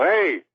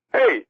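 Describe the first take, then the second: First: Higher, drawn-out "hey"; playful hey, moderately raised in pitch; own phone greeting. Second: Very high-pitched mock "hey"; imitated phone greeting. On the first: Retold or imitated. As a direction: lightly re-enact your usual greeting. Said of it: "I go". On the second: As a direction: toss out a short, high greeting. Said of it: "you go".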